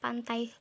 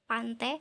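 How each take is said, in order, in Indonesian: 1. Kata ini berakhir dengan diftong 'ai'. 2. Diftong di akhir berubah menjadi satu vokal 'e'. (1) "yang seharusnya adalah pantai" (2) "Diftong I di sini diubah menjadi fonem E"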